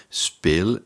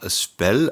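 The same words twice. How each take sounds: First: "spell" with a long, closed E, like "spale"; long vowel. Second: "spell" with a short, open E; short vowel. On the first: Teacher correcting the spelling for learners, long-vowel spell. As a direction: stretch the E of spell, as Dutch speel. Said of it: "mais spell avec deux E". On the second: Teacher showing learners the spelling to avoid, short-vowel spell. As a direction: say spell with a brief E, as written with one E. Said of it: "non pas spell avec un seul E". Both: Shown as a demonstration.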